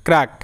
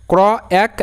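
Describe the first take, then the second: First: Said in the usual way. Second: "ক্র" and "এক" as two separate chunks; sounding out. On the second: Shown as a demonstration. Teacher recaps spelling for learners, segmented "ক্র, এক". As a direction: break it into "ক্র", pause, "এক". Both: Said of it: "C আর আসলো ক্র".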